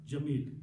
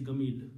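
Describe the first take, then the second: First: The word begins with a J sound. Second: The word begins with a hard G sound. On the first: This is how it is said when reciting scripture. "when they are reading the ayat of the Quran, they will pronounce Jamil" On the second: This is how it is said in everyday speech. "When they are outside the Quran... they will say he's Gamil"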